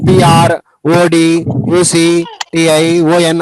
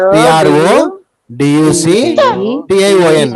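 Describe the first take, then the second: First: The letters are not grouped into three chunks. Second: The letters are grouped into three chunks. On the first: The speaker calls it wrong. "అలా అనకూడదు, తప్పది" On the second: The speaker calls it right. "ఇలా ఒకటో భాగము, రెండో భాగము, మూడు భాగాలుగా చేసుకొని చెప్పిడాల"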